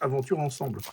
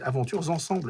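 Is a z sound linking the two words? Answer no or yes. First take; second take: no; yes. First: The words are said without a linking z sound. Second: A z sound links the first word to the second. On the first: The speaker calls it wrong. "Et ils disent tous" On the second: The speaker calls it right. "c'est plusieurs aventures"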